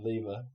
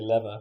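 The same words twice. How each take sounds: First: It is said with a British pronunciation. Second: It is said with an American pronunciation. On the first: "rather than lever" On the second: "I say lever ... that is American"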